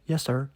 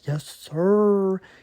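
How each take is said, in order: First: The final R is short and normal. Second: The final R is long and drawn out.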